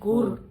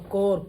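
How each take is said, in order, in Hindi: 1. स्वर एक स्पष्ट लंबी 'oo' ध्वनि है। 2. स्वर एक अस्पष्ट 'o' ध्वनि है। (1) "कूर नहीं" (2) "कोर पढ़ेंगे इसको"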